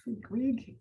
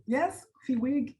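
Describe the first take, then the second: First: Fiwig asked softly with a rising question tune; tentative name try. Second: Fiwig said slowly and firmly with a falling tune, now confirmed; settled name. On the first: Host on a video call testing a guest's name, unsure and rising. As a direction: try out Fiwig quietly, unsure, lifting at the end. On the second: Host confirming a guest's name on the call, firm and settled. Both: Shown as a demonstration. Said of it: "I'm trying to say it right".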